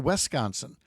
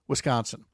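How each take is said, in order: First: The first syllable is said as 'wes'. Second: The first syllable is said as 'wis'. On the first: The speaker calls it wrong. "spell our state name W E S" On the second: The speaker calls it right. "he actually said Wisconsin"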